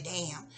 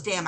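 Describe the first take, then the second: First: Soft, low "Damn" as in prayer; hushed "Damn" on her knees; quiet prayed damn. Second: Said in the usual way. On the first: Retold or imitated. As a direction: murmur it like a prayer. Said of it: "got on my knees and prayed and said". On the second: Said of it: "That's all I said was".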